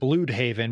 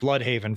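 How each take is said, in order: First: The first vowel is said as an umlauted 'ü'. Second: The first vowel is said as in 'blood'. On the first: This is the version used in the new show. "they pronounce it Bloodhaven because there's an umlaut over the U" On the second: This is the version fans have long used. "comic book fans have been calling it Bloodhaven for forever"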